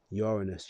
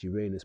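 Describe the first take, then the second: First: Uranus said as YOOR-uh-nus; Uranus, first-syllable stress. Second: Uranus said as you-RAY-nus; Uranus, RAY version. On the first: Naming the planet one way, Uranus as YOOR-uh-nus. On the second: Offering the other name for the planet, Uranus as you-RAY-nus. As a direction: stress a long RAY in the middle of Uranus. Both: Shown as a demonstration. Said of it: "people say it how they want".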